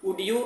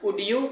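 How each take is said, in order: No difference in how they are said.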